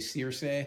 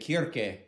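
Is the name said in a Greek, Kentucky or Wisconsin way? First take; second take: Kentucky; Greek. First: The name is said the Kentucky way. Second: The name is said the Greek way.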